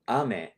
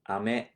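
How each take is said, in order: First: The pitch falls across the word. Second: The pitch rises across the word. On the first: It means rain. "that means rain" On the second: It means hard candy. "kind of rising tone"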